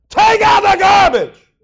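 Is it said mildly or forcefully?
forcefully. It is said loudly and forcefully.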